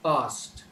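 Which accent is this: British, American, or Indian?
Indian. The word is said in an Indian accent. "a typical average Indian would pronounce it as past"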